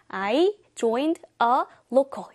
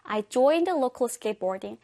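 First: Each word is cut off separately. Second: The words flow together with a weak article.

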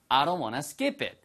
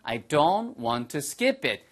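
First: It is said fast and reduced. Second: It is said slowly and fully.

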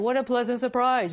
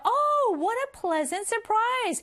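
First: It is said flatly, with no feeling. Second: It is said with lively, excited expression.

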